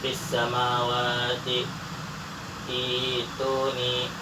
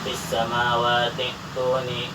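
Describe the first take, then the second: First: There is a stop between the two words. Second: The words run together without a break. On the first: The reading pauses after the first word. "jika dibaca waqaf" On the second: The reading continues without pausing. "jika dibaca wasol"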